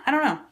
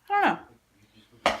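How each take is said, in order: First: Said in the usual way. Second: High, slow sing-song; sing-song I don't know. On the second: Real, not acted. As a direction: sing it like a shrug.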